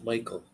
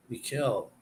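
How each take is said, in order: First: "Michael" said MY-kul; "Michael" the everyday English way; English Michael pronunciation. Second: "Mikel" said mee-KEL; "Mikel" with an ee first and a stressed KEL; Mikel pronunciation. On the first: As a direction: stress the first syllable of "Michael", MY-kul. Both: Shown as a demonstration. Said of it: "it's pronounced Michael".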